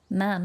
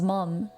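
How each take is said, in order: First: The vowel is a flat 'a', like 'mam'. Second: The vowel is an open 'o', like 'mom'. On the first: It is how the word is said at home with family. "I normally say ma'am" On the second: It is how the word is said online to other people. "it becomes mom when I'm online"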